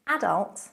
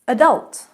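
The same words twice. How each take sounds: First: It has the British stress pattern. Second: It has the American stress pattern. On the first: "Adult in British" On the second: "adult in American"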